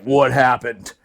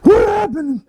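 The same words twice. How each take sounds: First: Low-voiced officer asking what happened; lieutenant. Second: High mock-wailing victim; dazed blast victim. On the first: Lieutenant jumps out of the truck to the blast, low voice. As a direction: drop low for the arriving lieutenant. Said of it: "The lieutenant shows up". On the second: Friend mocks a man splattered by a blast, high wail. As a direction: wail it high, hamming up the shock.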